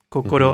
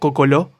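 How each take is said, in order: First: The consonants are pronounced with an R sound. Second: The consonants are pronounced with an L sound. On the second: "pronuncian palabras del japonés con L"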